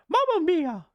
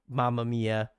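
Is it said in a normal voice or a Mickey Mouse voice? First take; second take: Mickey Mouse; normal. First: It is said in a Mickey Mouse voice. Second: It is said in his normal voice.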